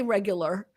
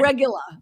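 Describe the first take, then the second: First: Regular is said in the plain, standard way. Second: Regular is said with a local pronunciation. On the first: The speaker calls it wrong. "You can't say regular" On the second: The speaker calls it right. "You have to say"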